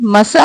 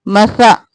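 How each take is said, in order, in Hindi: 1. बीच का व्यंजन एक तीखी s ध्वनि है। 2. बीच का व्यंजन एक नरम th ध्वनि है। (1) "मसा नहीं करना" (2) "सा को नरमी से, सीन की आवाज ना आए"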